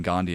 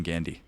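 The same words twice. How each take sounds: First: Gandhi with an "ah" in the first syllable; broad A in Gandhi. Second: Gandhi with the flat vowel of "candy"; American A in Gandhi. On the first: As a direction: say Gandhi as "GAHN-dee". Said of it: "revert back and forth between Gandhi and Gandhi". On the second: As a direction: say Gandhi as "GAN-dee". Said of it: "Americans would definitely be like". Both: Shown as a demonstration.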